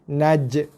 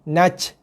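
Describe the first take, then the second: First: The final consonant ends with a short bounce. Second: The final consonant ends with a breathy hiss. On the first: The speaker calls it right. "jadi huruf qalqalah, lantun" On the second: The speaker calls it wrong. "Itu bukan bunyi qalqalah, itu bunyi angin"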